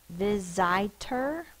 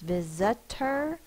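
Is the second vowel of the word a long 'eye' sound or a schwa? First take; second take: long I; schwa. First: The second vowel is a long 'eye' sound. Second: The second vowel is a weak schwa sound. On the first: The speaker calls it wrong. "the vowel says it's long sound, I, but the word is not visitor" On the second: The speaker calls it right. "it's visitor because of the schwa"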